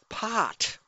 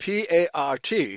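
First: The R sound is dropped entirely. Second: The R sound is clearly pronounced. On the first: The speaker calls it wrong. "She says, pot. They don't pronounce the letter R" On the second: The speaker calls it right. "The letter R should be pronounced"

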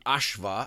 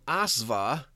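First: The consonant is an sh sound. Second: The consonant is a plain s sound. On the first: The speaker calls it right. "or actually Ashva, the S is actually pronounced like an SH" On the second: The speaker calls it wrong. "it may become Asva"

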